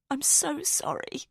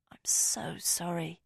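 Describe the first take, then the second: First: Slow, breaking apology, higher; voice cracking. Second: Slow, unvoiced condolence; whispered. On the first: Narrator apologises to Rosamond through rising tears, voice breaking. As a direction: let the voice crack as tears come. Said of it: "my voice cracking". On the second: Narrator whispers condolence to grieving Rosamond. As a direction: breathe a soft sorry. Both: A narrator's reading.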